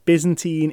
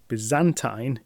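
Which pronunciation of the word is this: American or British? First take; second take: American; British. First: It is said the American way. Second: It is said the British way. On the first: "Byzantine is in fact the American one" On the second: "Byzantine is the British pronunciation"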